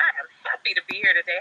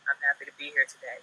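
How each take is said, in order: First: It sounds warm and genuinely happy. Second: It sounds flat and reluctant.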